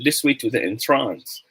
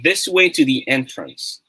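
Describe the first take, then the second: First: The stress in entrance is on the second syllable. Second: The stress in entrance is on the first syllable. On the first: It means to put someone under a spell. The speaker calls it wrong. "Hindi mo naman pwedeng sabihin this way to the entrance because entrance is a verb" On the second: It names a doorway to go into. The speaker calls it right. "It automatically means that it is entrance"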